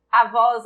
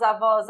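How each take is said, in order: First: Said in the usual way. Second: Avós with a long, held "vós"; slow avós, leaning on the "vós"; stress on final syllable. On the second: Shown as a demonstration. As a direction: call out avós, drawing out the last syllable. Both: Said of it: "A sílaba tônica é o vós".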